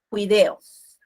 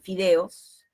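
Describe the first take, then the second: First: The word begins with a j-like sound. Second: The word begins with an f sound. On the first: "decimos ... alternancia de las consonantes" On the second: "de fideos"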